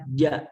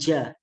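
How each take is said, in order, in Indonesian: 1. Bunyi j dilepas tanpa udara yang keluar. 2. Bunyi j dilepas dengan udara yang keluar. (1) "Tapi bacanya adalah ja" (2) "jangan sampai ada keluar udara ... nah itu salah"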